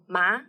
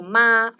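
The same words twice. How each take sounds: First: The pitch rises from mid to high. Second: The pitch stays high and level. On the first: It means tingling or numb. "if we put second tone ma" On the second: It means mom. "first tone, means mom"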